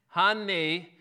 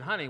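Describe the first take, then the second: First: It is said very loud, slow and clipped. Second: It is said a little louder than normal. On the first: "we tend to get louder, slower, and a little more staccato, right?" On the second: "just with a little louder voice"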